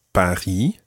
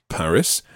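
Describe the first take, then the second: First: "Paris" as French "pa-REE", silent S; French pronunciation. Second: Said in the usual way. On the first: Shown as a demonstration. Teacher recapping the conversation, "Paris" pronounced as French pa-REE. French town name, then English one.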